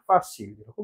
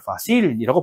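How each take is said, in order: First: 파실이라고 with the stress on 파; stress on first syllable. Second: 파실이라고 with the stress on 실; stress on last syllable. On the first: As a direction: punch 파 at the start of 파실이라고. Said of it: "딜레가 딱 있는". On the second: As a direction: lean on 실 in 파실이라고. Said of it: "마지막 음절". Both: Shown as a demonstration.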